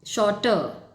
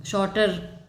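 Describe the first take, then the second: First: शॉर्टर without its final r, shown as the right way; correct pronunciation. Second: शॉर्टर with the final r sounded clearly; शॉर्टर with the last r pronounced, shown as the wrong way; wrong pronunciation. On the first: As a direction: say शॉर्टर as "shorta", no r at the end. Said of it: "no". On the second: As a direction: say शॉर्टर ending on a rolled r, as not to say it. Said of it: "last में शॉर्टर नहीं बोलते हैं हम उसको". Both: Shown as a demonstration.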